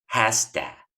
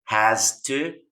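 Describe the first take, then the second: First: The words merge, ending in a weak vowel. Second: Both words are said fully and separately.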